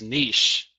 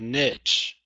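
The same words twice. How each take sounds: First: The word is said with a French-like sound. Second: The word is said with an English-like sound. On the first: It is the proper but snobby way to say it. "the proper pronunciation is niche, and I absolutely hate that pronunciation. It's it's really snobby" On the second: It is the everyday, unpretentious way to say it. "So I always say niche"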